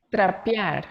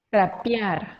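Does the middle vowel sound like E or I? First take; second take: I; I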